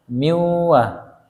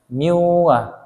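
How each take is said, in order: The two takes are said the same way.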